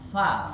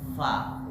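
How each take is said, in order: First: The first sound is made by pressing both lips. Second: The first sound is upper teeth on lower lip. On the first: The speaker calls it wrong. "Huruf fa bukan dempetan antara dua bibir. Kalau baca fa, fa, fa itu salah" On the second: The speaker calls it right. "keluarnya dari gigi seri bagian atas a yang ujungnya nempel dengan bibir bagian bawah"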